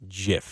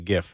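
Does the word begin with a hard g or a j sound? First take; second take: j sound; hard g. First: The word begins with a j sound. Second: The word begins with a hard g sound. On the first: The speaker calls it right. "the correct way to call it is GIF. Like peanut butter" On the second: The speaker calls it wrong. "A lot of people tell you GIF"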